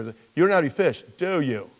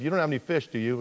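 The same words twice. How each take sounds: First: Brisker question with "do you" set apart; shifted emphasis. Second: Said in the usual way. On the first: Shown as a demonstration. Preacher testing where Jesus put emphasis, stressed "do you". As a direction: lean on the tag "do you". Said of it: "I wonder if he actually put the emphasis". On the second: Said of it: "I wonder if he actually put the emphasis, instead of".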